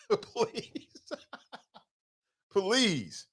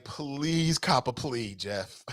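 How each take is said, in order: First: Please through laughter, high and soft; laughing please. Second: Slow, soft pleading plea trailing into a laugh; pleading mock Sam. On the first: Retold or imitated. Sam begging Jeff, laughing mock plea. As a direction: giggle out the please. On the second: Sam begging Jeff to take a plea, soft mock pleading. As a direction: beg him slowly, half laughing. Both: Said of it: "I bet Sam was like".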